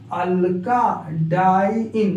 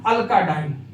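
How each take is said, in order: First: It is read slowly, the vowel drawn out. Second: It is read quickly, the vowel clipped.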